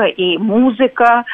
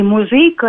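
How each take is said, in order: First: «музыка» stressed on the opening syllable, МУ; stress on first syllable. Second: «музыка» stressed on the middle syllable, ЗЫ; stress on second syllable. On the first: Linguist showing Pushkin's variants, «музыка» stressed on МУ. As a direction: put the weight on МУ in «музыка», drawn out. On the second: Linguist showing Pushkin's variants, «музыка» stressed on ЗЫ. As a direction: put the weight on ЗЫ in «музыка». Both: Shown as a demonstration. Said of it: "ударность слов".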